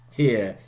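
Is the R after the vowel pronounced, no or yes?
no. It is said without the final R sound.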